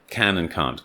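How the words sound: The two words sound clearly different. "British English speakers"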